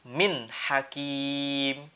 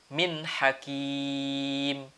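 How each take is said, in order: The two takes are said the same way.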